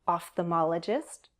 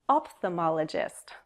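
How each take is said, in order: First: The word is said with an F sound. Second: The word is said with a P sound. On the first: "With an F sound" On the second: "or with a P sound"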